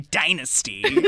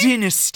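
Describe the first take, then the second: First: Dynasty is said in an American accent. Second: Dynasty is said in a non-American, British-style accent.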